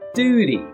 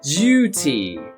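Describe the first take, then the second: First: The first vowel sounds like oo. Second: The first vowel sounds like yoo. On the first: The speaker calls it wrong. "Some Americans will often say long vowel U as an oo sound" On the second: The speaker calls it right. "It needs to be a long vowel U sound"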